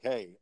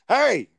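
First: It is said in a casual, mild tone. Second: It is said in an angry, aggressive tone.

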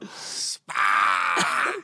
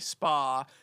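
First: The word is said in a Boston accent. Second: The word is said in a plain accent. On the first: "in a Boston accent" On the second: "it's already spa"

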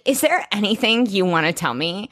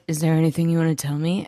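First: It is said in a lively, energetic way. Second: It is said in a quiet, subdued way.

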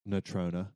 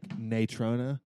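First: The name is pronounced in a plain, ordinary way. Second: The name is pronounced in an exaggerated, overdone way. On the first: This is the ordinary local way to say it. The speaker calls it right. "it's just Natrona" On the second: The speaker is trying to sound sophisticated. The speaker calls it wrong. "You're trying too hard"

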